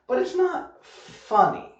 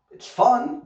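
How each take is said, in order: First: "not funny" drawn out high and slow; not funny said much higher and slower; stressed not funny. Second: FUN said high and loud with a lift; light up the word fun; stressed fun. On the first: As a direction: lean hard on not funny, stretched. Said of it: "Fun is different from funny". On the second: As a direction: fun said brightly and higher. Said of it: "fun just means you like it". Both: Shown as a demonstration.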